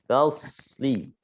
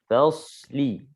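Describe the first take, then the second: The two takes are said the same way.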